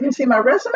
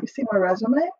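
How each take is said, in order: First: Higher, louder, incredulous; mock-outraged repeat of the question; indignant retort. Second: Said in the usual way. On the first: To the college staff, indignant and higher.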